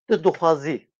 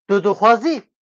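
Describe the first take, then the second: First: The voice falls at the end. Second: The voice rises at the end. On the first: It is a statement. "Sen istiyorsun" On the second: It is a question. "Sen istiyor musun?"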